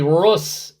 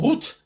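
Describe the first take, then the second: First: The name ends with an s sound. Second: The name ends with a t sound. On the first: The speaker calls it wrong. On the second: It is the standard pronunciation. The speaker calls it right. "as one should"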